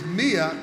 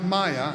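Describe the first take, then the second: First: The name begins with an 'ee' vowel. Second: The name begins with an 'eye' vowel. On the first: The speaker calls it right. "It is Mia" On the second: The speaker calls it wrong. "not Maya, and I apologize for the mispronouncing"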